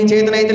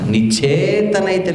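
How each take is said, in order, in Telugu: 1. చప్పగా చదివారు, కంఠతా చెప్పిన వాక్యంలా. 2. గట్టిగా, సవాలుగా చదివారు. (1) "కంటత వాక్యం లాగా" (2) "దేవుడు సవాలు విసురుతున్నట్టు ఉంటుందన్నమాట"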